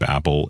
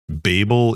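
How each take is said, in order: First: It is said with the American pronunciation. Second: It is said with the UK pronunciation. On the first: "Babel in American language" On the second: "Babel in the U K"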